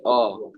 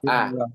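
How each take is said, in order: First: The vowel is heavy and rounded, like o. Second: The vowel is light and open, like a. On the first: The speaker calls it wrong. "Hamzah malah ikut tebal. Jadi O" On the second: The speaker calls it right. "Ya A, tipis ya"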